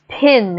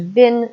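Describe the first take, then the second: First: The P is followed by a puff of air. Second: The P has no puff of air after it. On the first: "do you hear that H right after the P" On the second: "that does not exist in um, post-colonial Englishes"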